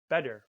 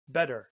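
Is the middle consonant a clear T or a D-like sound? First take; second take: D-like; D-like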